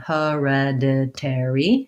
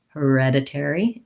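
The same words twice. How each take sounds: First: The word is said slowly, broken into parts. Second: The word is said quickly, at natural speed. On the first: "break this one down" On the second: "speed it back up"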